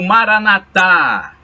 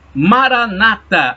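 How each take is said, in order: First: The stress falls on the last syllable. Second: The stress falls on the second-to-last syllable. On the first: This is the form Catholics use. "Maranatá dizem os católicos" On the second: This is the form Protestants use. "Maranata falam os protestantes"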